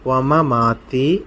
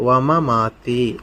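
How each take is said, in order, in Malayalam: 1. ഈ വാക്കിൽ രണ്ട് വേറെ വേറെ m അക്ഷരങ്ങളുണ്ട്. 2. ഈ വാക്കിൽ രണ്ട് വേറെ വേറെ m അക്ഷരങ്ങളുണ്ട്.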